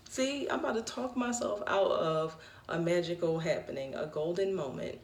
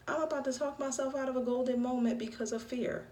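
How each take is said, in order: First: A hint of a measured coach talking you down; Will Williams voice. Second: Said in the usual way. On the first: Mimicking a friend's pep-talk voice about fear, lightly lowered. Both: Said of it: "in my Will Williams voice".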